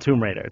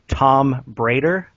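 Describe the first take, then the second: First: The b sound ends the first word. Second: The b sound starts the second word. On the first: The speaker calls it wrong. "not Tomb Raider" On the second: The speaker calls it right. "It's Tom Brader"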